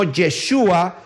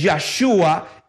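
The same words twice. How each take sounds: First: "Yeshua" opening on YE, with an E; pronounced with YE. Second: "Yahshua" opening on YAH, with an A; pronounced with YAH. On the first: Preacher citing the rejected reading, "Yeshua" said with YE. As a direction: say "Yeshua", first vowel an E. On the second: Preacher defending his reading, "Yahshua" said with YAH. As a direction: say "Yahshua", first vowel an open A. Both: Shown as a demonstration. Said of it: "es Yahshua y no Yeshua".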